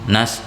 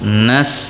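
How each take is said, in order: First: The s is said without a clear hiss. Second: The s is said with a clear hiss. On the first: The speaker calls it wrong. "jangan nas" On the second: The speaker calls it right. "harus ada keluar desisnya"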